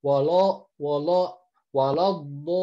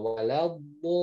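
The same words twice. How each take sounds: First: Walo with the lam thickened into o; wrong thick lam. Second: Wala with a thin lam and open a; correct thin lam. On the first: Teacher shows students the wrong thickened lam. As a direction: let the lam go heavy in walo. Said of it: "udah ikutan tebal lamnya". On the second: Teacher shows students the correct thin lam. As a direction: keep the lam light in Wala. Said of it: "baru dodnya yang tebal". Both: Shown as a demonstration.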